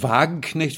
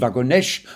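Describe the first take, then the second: First: The name is said with a German accent. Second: The name is said with a French accent. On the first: "wie es sich bei uns gehört" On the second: "Und die Franzosen Wagonesch"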